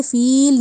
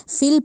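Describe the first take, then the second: First: فیل with a stretched ee; long ee. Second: فل clipped, no ya; short fil. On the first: Teacher shows wrong long فیل. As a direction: say فیل holding the ya. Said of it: "فیل نہیں پڑھا". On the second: Teacher models correct short فل. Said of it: "فل پڑھا". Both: Shown as a demonstration.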